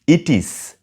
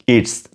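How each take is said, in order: First: Both words are said fully and separately. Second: The words merge into one contracted syllable. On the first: The speaker calls it wrong. "Don't say it is" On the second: The speaker calls it right. "Say it's"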